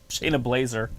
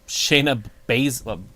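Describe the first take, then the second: First: The surname sounds like Blazer, with an l after B. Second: The surname sounds like Bazzler, with no l after B. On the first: The speaker calls it wrong. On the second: The speaker calls it right.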